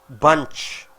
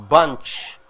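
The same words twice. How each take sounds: The two takes are said the same way.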